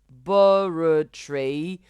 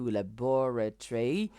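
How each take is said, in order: First: The stress is on the first syllable. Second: The stress is on the second syllable. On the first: "accent sur la première syllabe" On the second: "elle met l'accent sur la deuxième syllabe"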